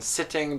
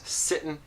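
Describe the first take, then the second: First: The word ends with a full -ing sound. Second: The word ends in -in without the G.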